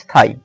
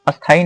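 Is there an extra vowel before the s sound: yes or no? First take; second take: no; yes. First: The word begins directly with the s sound. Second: An extra vowel is added before the s sound. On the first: The speaker calls it right. "यहाँ स्थाई बोलते हैं" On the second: The speaker calls it wrong. "अस्थाई नहीं"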